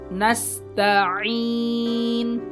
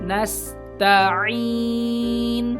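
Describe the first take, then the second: No difference in how they are said.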